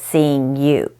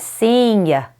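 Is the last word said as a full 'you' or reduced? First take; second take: full; reduced. First: The last word is said as a full 'you'. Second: The last word is reduced to a short 'ya'. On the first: "instead of seeing you" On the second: "you is often ya or y"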